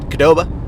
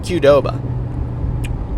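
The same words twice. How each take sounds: First: It begins with a plain K sound. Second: It begins with the spoken letter name Q. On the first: The speaker calls it wrong. "It's not Qdoba. Q is not just like a, a, a different K" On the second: The speaker calls it right. "you just say the letter Q and then say Doba"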